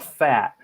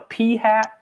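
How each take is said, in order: First: It is said as one word rhyming with 'hat'. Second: It starts with the letter P, then 'hat'. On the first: "or a fat?" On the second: "Is it a P hat"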